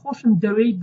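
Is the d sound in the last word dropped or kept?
kept. The d sound in the last word is kept. This is the standard form. "this is the standard Kurdish"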